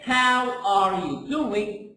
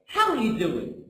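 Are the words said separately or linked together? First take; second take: separately; linked. First: Each word is said separately and fully. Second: The words are linked and reduced together. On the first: The speaker calls it wrong. "we don't say" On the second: The speaker calls it right. "No, we say"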